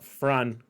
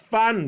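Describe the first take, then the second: First: It begins with an F followed by R. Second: It begins with a plain F sound. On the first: The speaker calls it wrong. "Not Fran" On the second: The speaker calls it right. "it's Fan"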